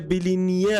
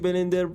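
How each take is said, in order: First: The word is said like 'bilinear'. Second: The word is said like 'blender'. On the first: The speaker calls it right. "بلینیر اگه اشتباه نخونم" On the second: The speaker calls it wrong. "من اینو دارم یک ساعت بلندر اشتباه میخونم"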